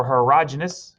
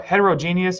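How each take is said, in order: First: Heterogeneous as het-er-AH-juh-nus; alternative pronunciation. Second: Heterogeneous as het-er-oh-JEE-nee-us; long-form pronunciation. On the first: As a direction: put the stress on AH in heterogeneous. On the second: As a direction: put the stress on JEE in heterogeneous. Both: Shown as a demonstration. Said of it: "however you'd like to say that".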